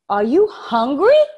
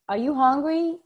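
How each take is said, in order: First: The pitch rises in a strongly exaggerated way. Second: The pitch moves only slightly, as in normal speech. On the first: The speaker calls it right. "when you exaggerate" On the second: The speaker calls it wrong. "if you do it naturally"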